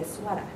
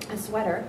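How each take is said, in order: First: The final R sound is dropped. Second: The final R sound is clearly pronounced.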